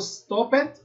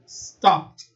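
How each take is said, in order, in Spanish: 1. El final es una sílaba extra añadida. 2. El final es un sonido corto de t. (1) "No digo" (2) "sino que digo"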